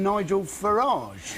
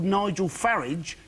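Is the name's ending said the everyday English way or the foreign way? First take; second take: foreign; everyday English. First: The name ends with a foreign-sounding ending. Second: The name ends like an everyday English word. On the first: The speaker is posher than he pretends. "rather than Nigel Farage" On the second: The speaker is an ordinary man of the people. "if he was truly a man of the people ... Like garage"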